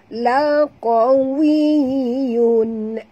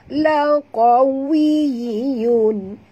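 No difference in how they are said.

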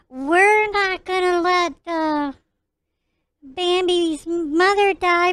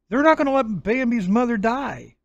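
First: It is said in a put-on character voice. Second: It is said in his natural voice.

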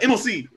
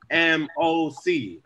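First: It is said quickly. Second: It is said slowly.

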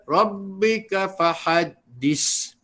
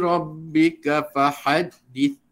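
First: The final consonant is a hard s sound. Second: The final consonant is a soft th sound. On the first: The speaker calls it wrong. "Itu kuat sangat bunyi dia. Ya, itu bukan sa, itu mungkin huruf sin" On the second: The speaker calls it right. "dapatlah hamas sa yang sempurna"

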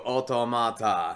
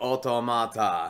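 First: It is said with a Japanese-style pronunciation. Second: It is said with a Japanese-style pronunciation.

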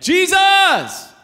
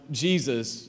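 First: The name is shouted loudly. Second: The name is said at normal, quieter volume.

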